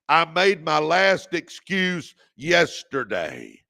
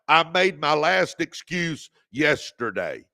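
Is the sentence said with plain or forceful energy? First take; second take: forceful; plain. First: It is said forcefully with strong conviction. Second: It is said out loud with ordinary energy. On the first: "say it like you mean it" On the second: "Say it out loud"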